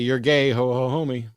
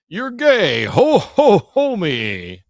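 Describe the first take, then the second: First: It is said in the speaker's normal voice. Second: It is said in a put-on Santa voice. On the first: "I'm just gonna say" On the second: "that's my best Santa voice"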